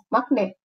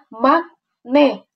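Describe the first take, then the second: First: The two syllables run together without a break. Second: The two syllables are split with a break. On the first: The speaker calls it right. "dia langsung makne" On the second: The speaker calls it wrong. "Tidak ada makne. Tidak ada kayak gitu"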